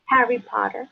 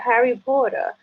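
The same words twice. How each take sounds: First: Spanish-accented name. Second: "Harry Potter" with a Spanish accent, trilled r; second try at "Harry Potter" in her accent; Spanish-accented name. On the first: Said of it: "I just wanna hear you say it". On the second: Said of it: "it's not gonna come out right". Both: Shown as a demonstration.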